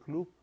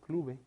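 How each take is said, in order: First: The word ends in a consonant. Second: The word ends with an added e vowel. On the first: "yo voy al club" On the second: "no voy al clube"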